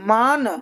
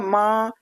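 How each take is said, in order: First: The final n is pronounced clearly and fully. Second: The final n is only nasalized through the nose. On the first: The speaker calls it wrong. "अब मान तो नहीं कह सकते ना" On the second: The speaker calls it right. "नाक से पढ़ा जाएगा"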